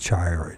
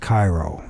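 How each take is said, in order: First: The name begins with a CH sound. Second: The name begins with a hard K sound. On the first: The speaker calls it wrong. "Instead of Chiro" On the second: The speaker calls it right. "I guess you don't pronounce the H. So it's Cairo"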